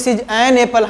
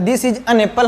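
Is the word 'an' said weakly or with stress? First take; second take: stressed; weak. First: The word 'an' is full and stressed. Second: The word 'an' is short and weak.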